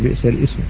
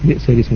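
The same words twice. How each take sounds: First: The glottal stop of ism is pronounced. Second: The glottal stop of ism is dropped. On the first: The speaker calls it wrong. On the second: The speaker calls it right.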